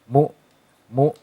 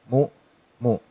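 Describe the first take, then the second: The two takes are said the same way.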